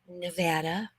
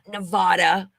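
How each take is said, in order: First: The name is said the local way. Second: The name is said the outsider way. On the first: The speaker calls it right. "it is Nevada" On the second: The speaker calls it wrong. "not Nevada"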